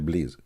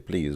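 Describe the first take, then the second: First: It is said with an Arabic-accented sound. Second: It is said with a standard English sound. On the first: "we say please"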